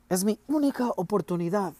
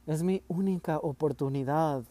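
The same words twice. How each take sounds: First: Loud, higher angry cry; forceful exclamation. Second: Understated, a touch of restrained tears; holding back tears. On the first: Boy insisting to his father it's his only chance, loud. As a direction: push it hard, stressing única. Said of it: "exclamé con fuerza". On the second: Boy repeating his plea to father while holding back tears. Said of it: "tratando de contener las lágrimas". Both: A narrator's reading.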